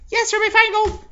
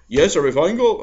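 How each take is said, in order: First: It is said in the secretary's put-on voice. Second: It is said in a voice not the secretary's.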